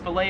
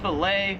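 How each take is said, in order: First: It is said with an American pronunciation. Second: It is said with an Australian pronunciation.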